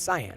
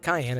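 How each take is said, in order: First: The word is said like 'sigh-an'. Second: The word is said like 'kai-en'. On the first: The speaker calls it right. "it's cyan" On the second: The speaker calls it wrong. "no, it's not cayenne"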